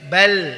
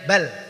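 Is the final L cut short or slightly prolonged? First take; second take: prolonged; cut short. First: The final L flows on slightly longer. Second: The final L is cut off abruptly. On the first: The speaker calls it right. "dialirkan sedikit" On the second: The speaker calls it wrong. "Jangan sampai bal gitu ya"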